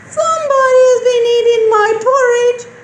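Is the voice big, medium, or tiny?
tiny. It is said in a tiny, small voice. "in a teeny tiny voice"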